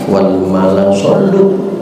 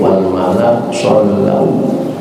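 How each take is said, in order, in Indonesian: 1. Kata terakhir berakhir dengan vokal 'u' biasa. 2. Kata terakhir berakhir dengan diftong 'au'.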